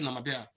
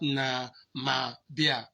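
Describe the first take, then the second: First: It is said quickly with a sound dropped. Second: Each syllable is said slowly with every sound kept. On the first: "while in fast speech ... I could delete a sound" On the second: "it might not be that"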